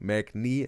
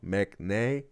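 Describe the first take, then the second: First: The final vowel sounds like ee. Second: The final vowel sounds like ay. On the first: "Mac knee, wrong" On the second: "Mac nay, wrong"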